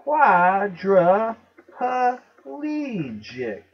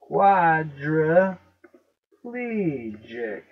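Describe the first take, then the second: First: "Quadriplegic" very slowly as QUAD-ruh-puh-LEE-jik; loud, drawn-out "Quadriplegic" with an extra puh syllable; five syllables. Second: "Quadriplegic" very slowly as QUAD-ruh-PLEE-jik; drawn-out "Quadriplegic" with pl run together; four syllables. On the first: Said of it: "say it and count the syllables". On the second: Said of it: "Oh, four syllables, not five". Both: Shown as a demonstration.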